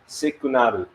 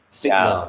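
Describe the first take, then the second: First: It has extra vowels, four syllables, ending in -ru. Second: It has two syllables, ending in -nal. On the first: "it is pronounced as sikunaru" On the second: "actually, it's signal"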